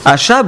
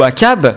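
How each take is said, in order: First: The middle consonant is an 'sh' sound. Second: The middle consonant is a 'k' sound.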